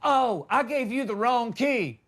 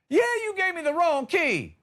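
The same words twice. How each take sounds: First: Lightly voiced manager, raised pitch; mock a manager realizing his slip, a bit higher; motel manager. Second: Much higher, incredulous comeback; indignant retort. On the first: Manager admitting a key mix-up, higher mock realization. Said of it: "He's like". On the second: Acted. Guest confronting manager over wrong key, high indignant retort. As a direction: throw it back high and exasperated.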